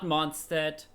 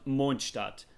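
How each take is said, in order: First: It is said with a non-German pronunciation. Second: It is said with a German pronunciation. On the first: The speaker calls it wrong. "not Mondstadt" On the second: The speaker calls it right. "it's called Mondstadt ... I'm a native German and I know how to pronounce it"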